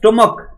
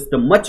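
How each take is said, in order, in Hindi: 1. यह शब्द k की आवाज़ से खत्म होता है। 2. यह शब्द ch की आवाज़ से खत्म होता है। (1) "हमने कहा स्टमक" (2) "इसको स्टमच नहीं पढ़ते"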